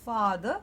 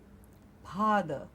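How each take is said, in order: First: The word begins with an f sound. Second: The word begins with an aspirated p sound. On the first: The speaker calls it right. "instead of saying father" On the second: The speaker calls it wrong. "they may end up saying father"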